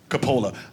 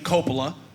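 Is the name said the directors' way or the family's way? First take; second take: family's; directors'. First: The name is said the speaker's family's way. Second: The name is said the famous directors' way. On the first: This is how the speaker's family says it. "We pronounce it Coppola" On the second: This is how the famous directors say it. "They pronounce their name Coppola"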